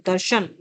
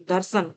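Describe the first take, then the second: First: दर्शन with a clear "sh" sound; Sanskrit "sh" form. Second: दर्शन with "s" in place of "sh"; colloquial "s" form. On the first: Teacher giving the Sanskrit word of a pair, दर्शन with "sh". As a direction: say दर्शन as "dar-shan". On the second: Teacher giving the everyday derived word, दर्शन said with "s". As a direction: say दर्शन as "dar-san". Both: Shown as a demonstration. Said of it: "इनमें से कौन सा शब्द तद्भव है".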